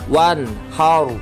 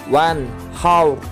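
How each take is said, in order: Both takes have the same delivery.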